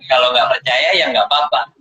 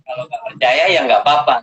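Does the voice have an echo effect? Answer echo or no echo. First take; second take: echo; no echo. First: The voice has an added echo effect. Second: The voice sounds dry, without any echo.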